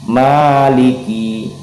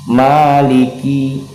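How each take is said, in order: The two takes are said the same way.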